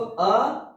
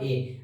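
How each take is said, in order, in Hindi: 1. Article 'a' छोटा, हल्का 'uh' वाला उच्चारण है। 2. आर्टिकल 'a' पूरा 'ay' वाला उच्चारण है। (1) "जिसको अ यू पढ़ा जाता है" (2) "नॉट ए"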